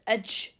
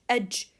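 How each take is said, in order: The two takes are said the same way.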